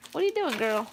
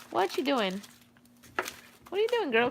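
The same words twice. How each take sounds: First: Said in the usual way. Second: High, soft sing-song question to a puppy. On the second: Real, not acted. Owner coos high and soft at her playful dog.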